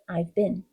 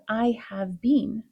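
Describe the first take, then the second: First: 'Have' is contracted onto 'I'. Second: 'Have' is said as a full word.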